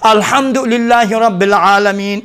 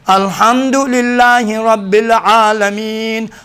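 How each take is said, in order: First: It is recited quickly. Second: It is recited at a measured pace.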